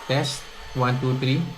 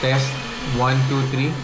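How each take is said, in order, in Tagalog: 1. Malakas ang pagbawas sa background na ingay ng vacuum. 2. Bahagya lang ang pagbawas sa background na ingay ng vacuum. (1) "nakaset po to high or strong" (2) "nakaset sa low or weak"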